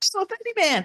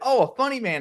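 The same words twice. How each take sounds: First: It is said in a warped, distorted, tape-like voice. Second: It is said in a plain, normal voice. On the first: "the tape was screwed up right over when he said it" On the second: "And Mo said"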